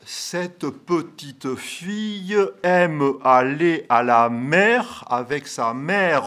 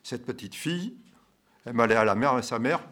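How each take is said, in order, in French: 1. Il est prononcé avec un accent régional du sud-ouest de la France. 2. Il est prononcé avec un accent français standard. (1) "ici, nous disons" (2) "Vous avez tout de suite traduit en français, qui n'est pas d'ici"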